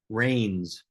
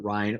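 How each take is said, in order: First: It rhymes with 'train' and ends in s. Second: It rhymes with 'line', with no final s. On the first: "or worse, Rains" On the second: "people will pronounce it Rhine"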